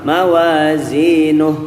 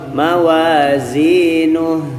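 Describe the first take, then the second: First: The final syllable is cut off abruptly. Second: The final syllable ends with a released vowel. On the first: The speaker calls it wrong. "Yang pertama mawazinuh, selesai" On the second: The speaker calls it right. "Yang kedua mawazinuh. Nah, yang kita mau yang kedua ya"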